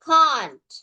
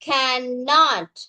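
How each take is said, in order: First: It is said as one contracted word. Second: It is said as two full words. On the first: "contract பாவிப்போம்" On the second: "so கேன் நாட் எப்படி வரும்?"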